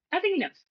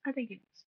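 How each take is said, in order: First: Pitched well up, emphatic; emphatic high. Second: Much softer, knowing aside; quiet repeat. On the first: Host insisting to co-host about Peter, high emphatic. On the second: Host repeating his point to co-host, much softer. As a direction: drop it to a near murmur. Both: Real, not acted.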